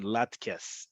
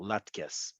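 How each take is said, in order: First: Latkes with the stress on the final syllable, kes; stress on last syllable. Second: Latkes stressed on the last syllable, kes, said soft and low; quiet latkes, weight on kes. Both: Shown as a demonstration. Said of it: "Emphasis is on the last syllable".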